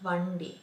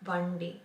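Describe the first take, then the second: No difference in how they are said.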